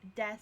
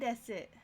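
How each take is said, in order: First: The final u sound is dropped. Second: The final u sound is clearly pronounced. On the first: It is the usual everyday form. "but generally it's just des mas" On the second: It sounds more polite. "they will pronounce the su in things like wakarimasu, hai, o genki desu, like that"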